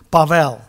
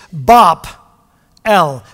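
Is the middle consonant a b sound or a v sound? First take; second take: v; b. First: The middle consonant is a v, said as one word. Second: The middle consonant is a b, split in two. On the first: "Bavel, B-A-V-E-L" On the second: "B-A-B-E-L, separate"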